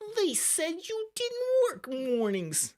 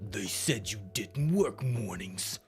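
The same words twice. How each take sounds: First: It is said in a silly cartoon voice. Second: It is said in a deeper goon voice.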